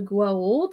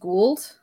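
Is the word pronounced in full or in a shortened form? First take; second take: full; shortened. First: The word is pronounced in full, every syllable. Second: The word is pronounced in a shortened, clipped form. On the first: The speaker calls it right. "that's the correct pronunciation" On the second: The speaker calls it wrong. "Colonel O'Neill, just says Gwold because ... lazy"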